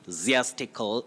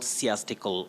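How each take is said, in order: First: The first consonant is a buzzing z sound. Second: The first consonant is a hissing s sound. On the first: The speaker calls it right. "takes the voiced sound like a Z. So you say ziastical" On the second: The speaker calls it wrong. "not siastical"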